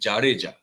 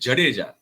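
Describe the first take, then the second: First: The first vowel is long. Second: The first vowel is short. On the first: The speaker calls it right. "वो असल जो उसका pronunciation है वो है जाडेजा, ज नहीं जा" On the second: The speaker calls it wrong. "उच्चारण होता है जडेजा, वो असल उच्चारण नहीं है"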